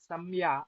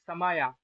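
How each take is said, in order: First: The m joins straight onto the y sound. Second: A full vowel separates the m and y. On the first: The speaker calls it wrong. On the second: The speaker calls it right.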